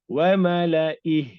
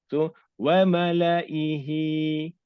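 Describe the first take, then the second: First: The word ends with its final vowel dropped. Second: The word ends with its final vowel pronounced. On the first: The reader stops at this word. "Kalau kita wakaf" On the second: The reading continues without stopping. "Kalau kita baca secara biasa"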